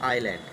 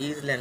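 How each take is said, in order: First: It begins with 'eye', with no s sound. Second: It begins with 'iz', with a z sound. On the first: The speaker calls it right. "এটা আইল্যান্ড" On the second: The speaker calls it wrong. "এটা যেন ইজল্যান্ড বলবে না"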